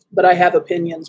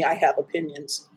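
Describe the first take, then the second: First: Said in the usual way. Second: Dropped low and soft, I have opinions said under the breath; low confiding mutter of I have opinions; knowing low aside. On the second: Shown as a demonstration. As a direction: let it sink, quiet and meaningful. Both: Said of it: "Believe me".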